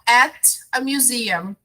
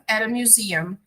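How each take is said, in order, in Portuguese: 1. Cada palavra é falada separadamente, com um T claro. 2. As palavras se juntam; o T soa como uma batida rápida.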